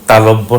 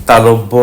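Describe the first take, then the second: Both takes have the same delivery.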